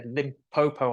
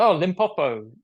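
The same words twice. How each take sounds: First: Said in the usual way. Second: Limpopo said the nurse's way, higher and louder; nurse's pronunciation. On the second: Retold or imitated. Nurse correcting his Limpopo, imitated pronunciation. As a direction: give Limpopo a different local sound. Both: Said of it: "pronounced it completely different to how I did".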